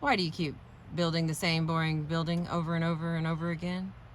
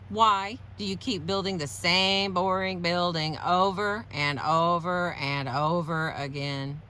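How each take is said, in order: First: The words are said with ordinary, even stress. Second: Several words get strong stress with an abnormal melody. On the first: The question is a neutral request for information. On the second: The question is a verbal attack.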